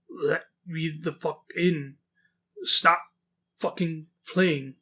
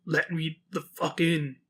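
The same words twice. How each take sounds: First: Goat man voice. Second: Slow, halting, soft creature voice with odd tone; goat man voice. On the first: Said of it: "my voice for the goat man". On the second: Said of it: "she keeps saying". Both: Retold or imitated. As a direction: drag each word out like an animal trying to talk.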